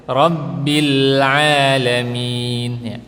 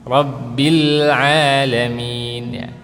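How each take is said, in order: The two takes are said the same way.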